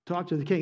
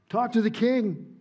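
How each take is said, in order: First: Said in the usual way. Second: Higher, louder, stress on to; urgent repeat. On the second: Shown as a demonstration. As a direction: push the plea harder.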